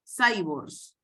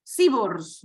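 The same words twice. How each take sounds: First: "Cyborgs" begun with English "sai"; "Cyborgs" with a first syllable rhyming with "hay"; English-style pronunciation. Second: "Cyborgs" begun with Spanish "si"; "Cyborgs" with a first syllable like "sí"; Spanish-style pronunciation. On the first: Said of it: "por ejemplo". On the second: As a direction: say "Cyborgs" as SI-bors, read as spelt in Spanish. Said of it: "Los robots humanoides". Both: Shown as a demonstration.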